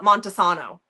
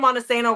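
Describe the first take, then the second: First: The name has a fancier, showier pronunciation. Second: The name has a plain, local pronunciation. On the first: This is how outsiders say it. The speaker calls it wrong. "They call it Montesano. ... we're not that bougie up here" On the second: This is how the town's own people say it. The speaker calls it right. "she's supposed to be from Montesano, Washington"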